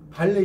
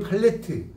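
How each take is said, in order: First: The word ends in a vowel, no t sound. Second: The word ends with a pronounced t sound. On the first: The speaker calls it right. "이 모음담의 티는 다 발음이 안 돼" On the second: The speaker calls it wrong. "티를 안 쳐"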